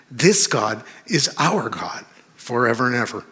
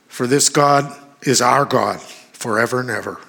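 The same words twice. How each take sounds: First: THIS and OUR each punched, with pauses between phrases; stress on THIS and OUR. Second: Said in the usual way. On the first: Shown as a demonstration. Preacher repeating the verse to his congregation, stressing THIS and OUR. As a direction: lean hard on "This" and "our", phrase by phrase.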